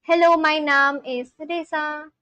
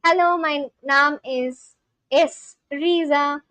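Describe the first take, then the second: First: "Reza" said with an "eh" vowel; "Reza" said as REH-za; wrong name, Reza. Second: Slowed down, "Riza" said with an "ee" vowel; "Riza" said as REE-za; corrected name, Riza. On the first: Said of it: "It's not Reza, it's Riza". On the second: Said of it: "it's Riza". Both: Shown as a demonstration.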